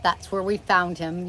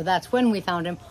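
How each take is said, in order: First: Said in the usual way. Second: When pressed a touch in a self-correction; mild corrective stress on when. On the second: Shown as a demonstration. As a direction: lean lightly on the word when. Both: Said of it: "or that's when we found him".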